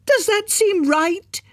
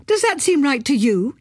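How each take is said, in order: First: Very high, slow, drawn-out outrage; outraged question. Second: Higher pitched reproach; aggrieved challenge; indignant question. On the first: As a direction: stretch out the final demand. Climax of widow's tirade. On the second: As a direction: demand he agree. Widow confronting Martin. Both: A narrator's reading.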